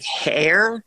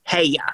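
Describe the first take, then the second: First: The final r sound is clearly pronounced. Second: The final r is dropped, ending in uh.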